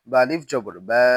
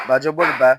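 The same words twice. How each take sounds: First: Final বা with a long a; বা held long; stretched vowel. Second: Final বা with a short a; no stretch. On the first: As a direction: draw out the last বা. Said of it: "জবরে আমরা টান দিব". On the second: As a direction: cut the last বা short. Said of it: "তখন কোথাও টান দিব না". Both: Shown as a demonstration.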